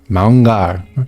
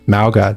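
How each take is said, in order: First: The name is said with an n before g. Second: The name is said without an n before g. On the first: The speaker calls it right. "That's like the proper pronunciation" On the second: The speaker calls it wrong. "that's not how you pronounce his name"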